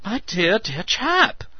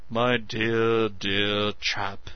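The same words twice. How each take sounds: First: Excited. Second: Mocking imitation of Meadows; vicious mimicry. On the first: Meadows excited voice. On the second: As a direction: mimic him with a sneer. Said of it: "unable to keep himself from vicious mimicry". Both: A narrator's reading.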